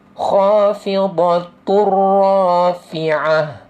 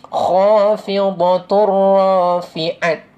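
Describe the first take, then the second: First: The last word ends with an h sound. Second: The last word ends with a t sound. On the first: The speaker calls it right. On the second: The speaker calls it wrong. "Kita tak akan baca"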